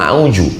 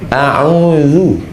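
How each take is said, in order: First: The middle consonant sounds like 'j'. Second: The middle consonant sounds like 'dh'. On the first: The speaker calls it wrong. "Dari mana kau belajar bahasa Quran?" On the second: The speaker calls it right. "Ada za"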